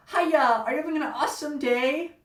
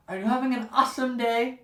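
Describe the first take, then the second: First: Bubbly fast-food greeting, higher and louder; perky cashier. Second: Mock-chipper cashier voice, higher; perky cashier. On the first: Retold or imitated. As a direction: chirp it like an overeager cashier. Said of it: "the girl behind the counter said". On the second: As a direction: parrot her cheerful script.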